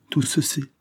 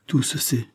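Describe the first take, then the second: First: Repeated even higher, broken; stammered despair. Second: High, falling stammer of shock; stammered dismay. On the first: Valentine repeats it higher, stammering in shock. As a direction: let the words crack upward in despair. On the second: Valentine stammers as her secret is exposed. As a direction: falter as if the ground gives way. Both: A narrator's reading. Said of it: "balbutia Valentine".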